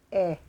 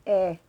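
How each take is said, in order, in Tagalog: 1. Ang patinig ay parang tunog ng phonics ng titik. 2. Ang patinig ay parang tunog ng phonics ng titik.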